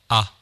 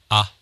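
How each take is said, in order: First: The voice has a light touch of reverb. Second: The voice is dry with no added reverb. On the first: "リバーブ成分を10% ほど入れてみます" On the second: "リバーブを入れない通常の状態にて話しております"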